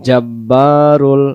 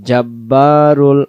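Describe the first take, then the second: The two takes are said the same way.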